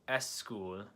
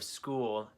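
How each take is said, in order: First: An extra vowel comes before the s sound. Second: It starts directly with the s sound. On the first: The speaker calls it wrong. "this doesn't sound very right in English" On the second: The speaker calls it right. "instead of school"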